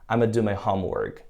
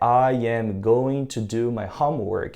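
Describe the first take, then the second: First: It is squeezed into 'I'ma'. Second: Every word is said in full.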